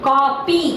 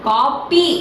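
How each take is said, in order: The two takes are said the same way.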